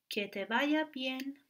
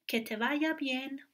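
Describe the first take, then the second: The two takes are said the same way.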